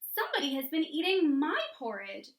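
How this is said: It is said in a sweet, low voice.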